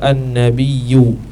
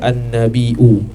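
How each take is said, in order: First: It ends with a y glide, no glottal stop. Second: It ends with a glottal stop before the vowel. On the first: It comes from a word meaning elevated rank. "tidak dihamzahkan" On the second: It comes from a word meaning news. "Mahmus tu baca hamzah"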